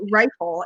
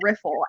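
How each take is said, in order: First: The first vowel is a long 'eye' sound. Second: The first vowel is a short 'i' sound. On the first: The speaker calls it wrong. "how often I say rifle instead of riffle" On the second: The speaker calls it right. "I know it's riffle"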